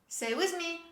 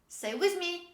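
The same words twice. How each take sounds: Both takes have the same delivery.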